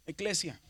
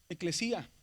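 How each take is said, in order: First: Said in the usual way. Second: "Eclesía" with the accent on the í; "Eclesía" stressed on its next-to-last vowel, í; stress on the iota. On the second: Shown as a demonstration. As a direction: stress the í in "Eclesía", making it its own syllable. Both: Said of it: "que lleva un acento en la iota".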